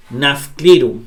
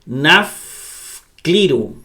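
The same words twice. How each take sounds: First: Said in the usual way. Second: Nafcliro sounded out very slowly, syllable by syllable; nafcliro, teacher dictating at half speed; slow spelled-out reading. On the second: Shown as a demonstration. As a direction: drag out nafcliro slowly so students catch each sound. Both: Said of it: "Ahí dice".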